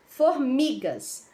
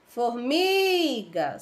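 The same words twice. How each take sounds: First: It is said in a plain, even speaking voice. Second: It is called out, stretching the stressed syllable. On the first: "Estou apenas pronunciando" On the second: "Vamos chamar a palavra?"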